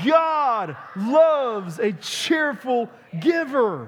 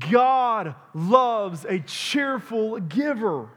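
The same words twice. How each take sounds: First: It is said in a cheerful tone. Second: It is said in a plain tone.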